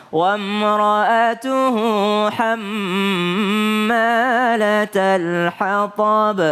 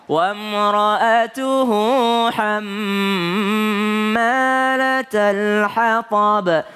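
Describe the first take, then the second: No difference in how they are said.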